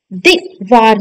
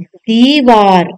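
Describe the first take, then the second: First: दीवार with a short first vowel, "divaar"; wrong pronunciation. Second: दीवार slowly with a long ई; correct pronunciation. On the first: Teacher rejecting the short matra, wrong pronunciation. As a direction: clip दी to दि in दीवार. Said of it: "दीवार नहीं". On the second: Teacher giving the corrected word, long-vowel pronunciation. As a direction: stretch दीवार as "deee-vaar". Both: Shown as a demonstration.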